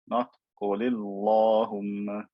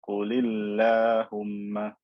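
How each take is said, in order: First: The l sound is heavy and full. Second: The l sound is light and thin. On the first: The speaker calls it wrong. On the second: The speaker calls it right.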